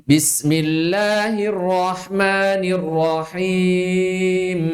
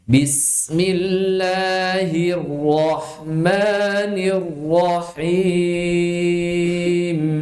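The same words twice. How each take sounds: First: Chanted "Bismillahirrahmanirrahim" with light, unraised R; slow recitation, thin R in "rahman" and "rahim"; wrongly thin ro. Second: Slow chant, "rahman" and "rahim" with thick, heavy R; thick-ro recitation. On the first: Teacher tests students with a mistake, thin-R recitation. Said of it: "Saya tidak menebalkan ro". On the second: Teacher models for students to repeat, thick-R slow recitation. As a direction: chant "Bismillahirrahmanirrahim" very slowly, tongue root raised on each R. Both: Shown as a demonstration.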